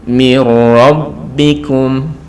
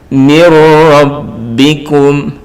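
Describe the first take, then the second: No difference in how they are said.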